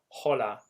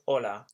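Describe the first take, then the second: First: The word starts with an audible H sound. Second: The word starts directly with the vowel. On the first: The speaker calls it wrong. "hence it's not hola" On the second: The speaker calls it right. "we never pronounce the H in Spanish"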